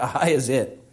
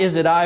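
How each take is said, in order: First: I is it said low and soft; playful inversion of Is it I; swapped word order. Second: Said in the usual way. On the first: Shown as a demonstration. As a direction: drop low and quiet on I is it.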